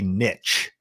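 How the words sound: The word is said the American way. "in America, we'd say niche"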